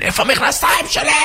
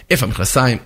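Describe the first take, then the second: First: High-pitched frantic demand; acted high yell of irritation; annoyed yell. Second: Said in the usual way. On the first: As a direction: squawk it in a flustered temper. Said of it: "מתעצבן". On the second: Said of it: "תמיד צועקים על האישה".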